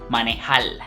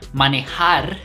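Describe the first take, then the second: First: The word ends with an L sound. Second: The word ends with an R sound. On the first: "they say manejal" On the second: "Instead of manejar"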